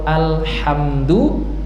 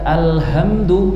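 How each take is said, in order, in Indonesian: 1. Bunyi h-nya keras, keluar dari tenggorokan. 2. Bunyi h-nya lembut, hanya hembusan napas biasa. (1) "segala puji" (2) "bukan ha tapi diganti menjadi ha ... maknanya lain. Kebinasaan"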